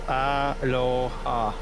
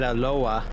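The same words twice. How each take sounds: First: Each syllable is said slowly and separately. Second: The syllables run together quickly into one word. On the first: The speaker calls it right. "emphasize each of it individually instead of just flowing it into one word" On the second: The speaker calls it wrong. "I said it too quickly"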